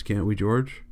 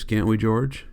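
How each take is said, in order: First: The same plea, softer and smaller; a hushed, fearful plea; softer pleading. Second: Said in the usual way. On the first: A narrator's reading. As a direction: let the hope drain out as you ask. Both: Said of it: "Now Candy spoke his greatest fear".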